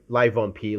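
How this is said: The name is said with a French accent. "very French of you"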